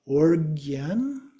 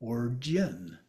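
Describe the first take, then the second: First: "organ" said slowly as or-GYEN, with hard G; hard G pronunciation. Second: "origin" said as or-JEN, G like J; soft G pronunciation. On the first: Teacher showing one of two options, "organ" with hard G. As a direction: draw out "organ" with a G as in go. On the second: Teacher showing the other option, "origin" with J sound. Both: Shown as a demonstration. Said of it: "more like a J or more like a G".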